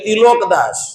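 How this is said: The second vowel is an 'o' sound. "वहां के लोग बोलेंगे तिलोक दास"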